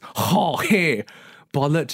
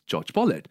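First: The first name is said like Spanish Jorge. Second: The first name is said like English George. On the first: "it's pronounced as Jorge Bollett" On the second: "at the time I pronounced it as George Bollett"

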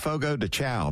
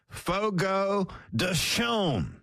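First: The last word sounds like 'chow'. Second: The last word sounds like 'shom'. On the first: The speaker calls it wrong. "I always said Fogo de Chow" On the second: The speaker calls it right. "I guess I've been saying it wrong all these years"

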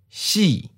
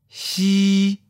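First: The pitch starts high and falls. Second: The pitch stays level and high. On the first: "High falling. Second tone" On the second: "High flat. First tone"

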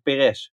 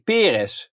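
First: The stress is on the second syllable. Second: The stress is on the first syllable. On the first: This is how it is commonly said locally. "iedereen in Nederland zegt Perez" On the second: This is the original pronunciation. "Je legt de nadruk op de eerste"

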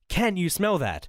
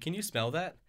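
First: It is said loudly, almost shouted. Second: It is said at a normal, quieter volume.

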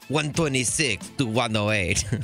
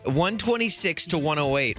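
First: It is said in a put-on French accent. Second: It is said in his ordinary accent.

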